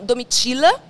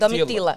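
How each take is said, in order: First: The t before i is softened, not plain. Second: The t before i is a plain t. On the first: This is how it is said in the south. "In Süden Brasilien sagen wir Domitila" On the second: This is how it is said in the northeast. "Und da ist er Domitila"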